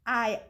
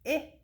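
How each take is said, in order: First: The vowel is the long sound, like 'eye'. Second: The vowel is the short sound, like 'ih'.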